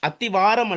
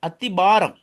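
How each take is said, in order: First: The consonant before the last syllable is v. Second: The consonant before the last syllable is p. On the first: The speaker calls it wrong. "அத்திவாரம் அல்ல" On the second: The speaker calls it right. "அத்திபாரம் தான் சொல்லணும்"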